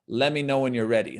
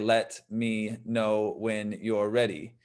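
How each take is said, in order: First: The words run together in one smooth flow. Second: Each word is said separately and carefully. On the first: This is how it sounds in real use. The speaker calls it right. "when we actually use it" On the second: This is how it sounds when read from a book. The speaker calls it wrong. "when we read it"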